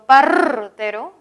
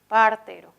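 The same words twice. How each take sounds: First: The r is an exaggerated multi-beat trill. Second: The r is a single quick tap. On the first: "incluso exagerando, vamos a ver que hay cinco golpes" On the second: "solo se produce un golpecito y luego se despega, ¿no? Un golpecito"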